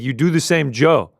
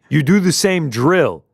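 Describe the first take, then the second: First: The phrase is said in a Hawaiian accent. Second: The phrase is said in a plain accent.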